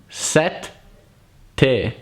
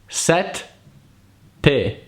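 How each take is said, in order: The two takes are said the same way.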